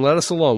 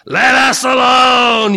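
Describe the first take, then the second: First: It is read in a plain, ordinary voice. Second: It is said in a put-on demonic voice. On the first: "I just read it like that. It probably doesn't sound like that" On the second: "what does a demon sound like?"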